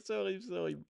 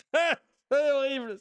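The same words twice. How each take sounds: First: Said in the usual way. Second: Horrified. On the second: Real, not acted. Disgust at pigeon eating.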